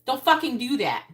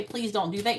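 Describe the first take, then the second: First: Loud, firm command; firm yell. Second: Said in the usual way. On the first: Retold or imitated. Parent yelling at kids to stop, loud firm command. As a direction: bark it at the kids. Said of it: "You say". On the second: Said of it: "they don't listen to you if you say".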